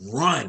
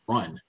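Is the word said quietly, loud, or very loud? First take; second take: very loud; quietly. First: It is said very loudly. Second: It is said quietly.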